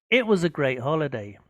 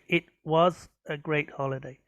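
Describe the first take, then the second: First: The words run together smoothly in one flow. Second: Each word is said separately, like a robot. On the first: The speaker calls it right. "Try to say it was a great holiday. make it flow a bit more" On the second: The speaker calls it wrong. "You sound a bit like a robot when you speak. Try not to say"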